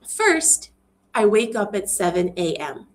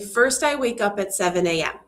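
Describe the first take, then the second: First: There is a short pause after 'first'. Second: There is no pause after 'first'. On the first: The speaker gives the listener time to follow the order of events. The speaker calls it right. "I pause here. There's a little space in my speaking" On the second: The statement comes across as abrupt and direct. The speaker calls it wrong. "if there was no comma there, it would say, ... That's a little direct"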